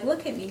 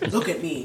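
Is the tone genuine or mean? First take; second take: genuine; mean. First: It is said in a gentle, sincere way. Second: It is said in a mean, menacing way.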